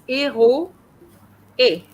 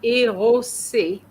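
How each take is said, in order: First: Éro-é with a clear break and no S, very slowly; correct, no liaison. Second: Érosé with the S linked in, drawn out slowly; mock wrong liaison. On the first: Teacher correcting Christina's liaison, slow and careful. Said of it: "No, it's". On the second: Teacher imitating Christina's wrong liaison, slow. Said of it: "You said". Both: Shown as a demonstration.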